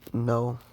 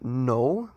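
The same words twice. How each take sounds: First: It is said gently, not aggressively. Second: It is said aggressively and harshly.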